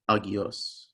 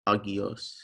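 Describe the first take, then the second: First: Each opening vowel is sounded separately. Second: The same.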